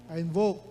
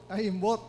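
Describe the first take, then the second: First: The verb is pronounced fully as invoke. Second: The verb is slurred so it sounds like imbot. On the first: "I invoke my right to privacy" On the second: "ang naging pronunciation na niya ay I imbot"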